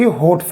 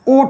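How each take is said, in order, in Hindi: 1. शब्द की शुरुआत 'ह' की ध्वनि से होती है। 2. शब्द सीधे स्वर से शुरू होता है। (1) "ये हमारा गलत शब्द है।" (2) "शब्द क्या होता है हमारा? ओठ होता है।"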